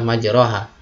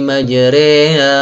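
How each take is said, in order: First: The vowel after r is a plain open a. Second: The vowel after r leans toward an e sound. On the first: The speaker calls it wrong. "kalau dibaca secara penulisannya" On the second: The speaker calls it right. "Saya praktekkan"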